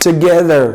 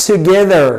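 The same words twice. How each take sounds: The two takes are said the same way.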